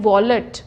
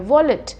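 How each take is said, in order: First: The second syllable is stressed and full. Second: The second syllable is short and unstressed. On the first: The speaker calls it wrong. "ऐसे बोलते हैं हम इसको" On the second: The speaker calls it right. "उसको थोड़ा सा compress करना है"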